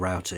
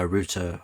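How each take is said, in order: First: It is said in an American accent. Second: It is said in a British accent.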